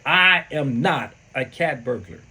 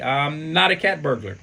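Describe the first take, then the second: First: It is said with the most force. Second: It is said weakly and hesitantly.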